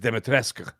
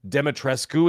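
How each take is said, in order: First: The name is said with its native Eastern European sound. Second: The name is read out in a plain anglicized way. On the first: The speaker calls it right. "but to say it is" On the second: The speaker calls it wrong. "is how it's spelled"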